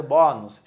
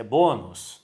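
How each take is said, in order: First: "bônus" with an open ó; wrong open vowel. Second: Said in the usual way. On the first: Shown as a demonstration. Teacher showing what nobody would read, "bônus" with open aw. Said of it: "Ninguém vai ler". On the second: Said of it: "e o timbre fechado".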